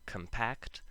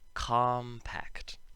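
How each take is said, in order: First: The stress is on the second syllable. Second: The stress is on the first syllable. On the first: It is the verb. "the verb compact" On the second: It is the adjective. "there is an adjective, compact"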